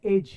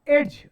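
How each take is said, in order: First: एज as plain "ej", no d; silent d. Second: एज louder, with a d before the j; mispronunciation. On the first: Teacher giving the correct reading, एज with silent d. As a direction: say एज without sounding a d. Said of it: "इसको पढ़ते". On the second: Teacher rejecting a reading, एज with the d pronounced. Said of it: "नहीं". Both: Shown as a demonstration.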